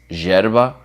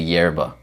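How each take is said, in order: First: It is said with an Argentine accent. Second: It is said with an American accent. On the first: The speaker calls it right. "With a Argentine accent" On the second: The speaker calls it wrong. "super American or English, you would say"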